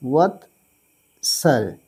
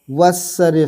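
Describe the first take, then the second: First: वत्सर्य drawn out very slowly; slow clear repeat. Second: Said in the usual way. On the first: Shown as a demonstration. Teacher repeating वत्सर्य slowly for students. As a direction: stretch वत्सर्य so students catch it. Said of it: "वत्सर्य से होता है".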